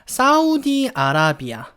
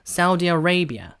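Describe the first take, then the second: First: Arabia is said with open 'ah-rah' vowels. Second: Arabia is said with 'uh-ray' vowels. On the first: "일단 우리말로는" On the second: "사우디 어레이비아예요"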